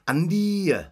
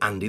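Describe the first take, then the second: First: The name is said in a Welsh accent. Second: The name is said in a plain accent. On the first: "When they say Andy in Welsh, ... they say Andy. There's a y at the end" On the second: "they don't say Andy"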